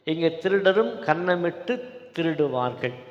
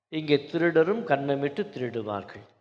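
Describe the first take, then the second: The two takes are said the same way.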